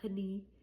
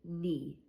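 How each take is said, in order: First: The word begins with a k sound. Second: The word begins with an n sound. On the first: The speaker calls it wrong. "I don't hear a K sound, which would be knee" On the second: The speaker calls it right. "just knee"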